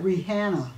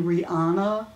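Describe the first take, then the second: First: "Rihanna" said as ree-HAN-na with a flat a; mispronounced name. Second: "Rihanna" said as ree-AH-na with a broad a; corrected name. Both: Retold or imitated. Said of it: "You mean [name]?".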